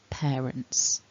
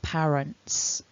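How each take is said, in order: First: The first vowel glides like 'air'. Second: The first vowel is a short flat 'ah'. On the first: The speaker calls it right. "but it's not, it's pear" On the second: The speaker calls it wrong. "a very common error that I hear is people pronouncing this pa"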